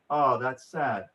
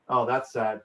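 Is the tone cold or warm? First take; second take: warm; cold. First: It is said in a warm, soothing tone. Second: It is said in a cold, dismissive tone. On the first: The listener's feelings are accepted. The speaker calls it right. "soothing, gentle, understanding" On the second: The listener's feelings are brushed aside. The speaker calls it wrong. "That's cold"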